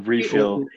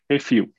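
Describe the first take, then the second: First: The word is said with English pronunciation. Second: The word is said with Portuguese pronunciation.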